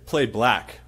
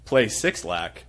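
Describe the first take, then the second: First: The name is said as one word, 'Black'. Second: The name is said as 'Six Lack'. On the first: The speaker calls it right. "if you say" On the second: The speaker calls it wrong. "if y'all catch anybody pronouncing it Six Lack"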